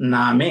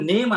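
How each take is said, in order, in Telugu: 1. ఇది రెండు అక్షరాలుగా అంటారు, 'naa-me'. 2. ఇది ఒకే అక్షరంగా అంటారు, 'neim'. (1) "ఇక్కడ నామే" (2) "ఇక్కడ నేమ్ అనము, నేమ్ అనేది ఇంగ్లీష్ నుంచి వస్తుంది"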